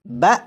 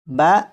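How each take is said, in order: First: The syllable is cut off with a sharp jolt. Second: The syllable is said smoothly in a normal voice. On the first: The speaker calls it wrong. "इन तीनों हरूफ को मैं झटका देकर पढ़ूंगा" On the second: The speaker calls it right. "झटका देकर नहीं पढ़ेंगे बल्कि नॉर्मल आवाज़ में पढ़ेंगे"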